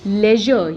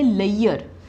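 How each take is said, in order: First: The middle consonant is a buzzing zh sound. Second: The middle consonant is a glide-like y sound. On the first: The speaker calls it right. "Correct pronunciation" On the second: The speaker calls it wrong. "Mispronounce करते हैं"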